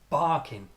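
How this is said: The first syllable is strong, second weak.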